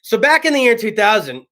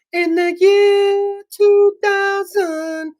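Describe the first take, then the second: First: Said in the usual way. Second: High, slow, booming sing-song; slow high mock-dramatic chant; Conan year two thousand bit. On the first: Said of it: "We'll do it right now". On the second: Shown as a demonstration. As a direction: intone it like Conan's sketch. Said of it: "We'll do the co".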